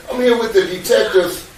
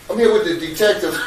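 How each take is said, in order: First: Said with a real laugh, pitched up; light nervous laugh on the line. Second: Said in the usual way. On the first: Real, not acted. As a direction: chuckle through the words to his wife. Laughs while telling his wife.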